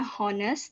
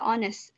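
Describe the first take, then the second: First: The word begins with an h sound. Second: The word begins with a vowel sound. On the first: The speaker calls it wrong. "Tulisannya honest" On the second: The speaker calls it right. "dibaca honest. H-nya tidak dibaca"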